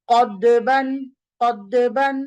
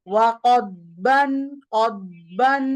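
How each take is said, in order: First: কদ্দেবান with a doubled, bounced দ; wrong qalqala on dal. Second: ওয়াকদবান with the দ held, a slow throaty hum; correct istitala. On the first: Teacher to students, demonstrating the common qalqala error. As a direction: show the mistake কদ্দেবান, dal echoed too hard. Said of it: "দ দিয়ে কলকলা দেয় মানুষজন". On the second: Teacher to students, showing the right way slowly. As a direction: stretch ওয়াকদবান, দ pressed from the tongue's side. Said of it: "এটা করতে হবে কিভাবে". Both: Shown as a demonstration.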